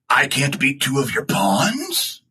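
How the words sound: The voice rises at the end like a question.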